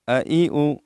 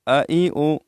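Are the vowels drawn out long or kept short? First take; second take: short; short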